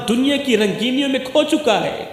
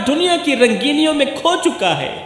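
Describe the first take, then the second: No difference in how they are said.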